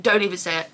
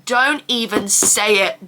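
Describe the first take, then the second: First: Softer muttered echo of the warning; quieter repeat. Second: Warding off a jinx. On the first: To herself after tempting fate, a quieter second warning. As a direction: repeat it under your breath. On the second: To herself after tempting fate about a UTI, slow firm warning. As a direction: say it slowly to stop the jinx. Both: Real, not acted. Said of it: "it's a miracle I haven't had".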